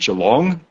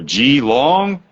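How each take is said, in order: First: The name has an Australian pronunciation. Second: The name has an American pronunciation. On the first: This is how locals say it. "I grew up in the town of Geelong" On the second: This is how Americans say it. "as the Americans would say"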